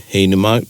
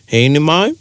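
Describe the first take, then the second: First: "He inu mau?" with the tune going down; "mau" said level and falling; falling question tune. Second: "He inu mau?" rising up at the end; "mau" lifted high, English-style rise; rising question tune. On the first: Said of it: "te pātai roto i te reo should go down". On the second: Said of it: "So you don't go". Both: Shown as a demonstration.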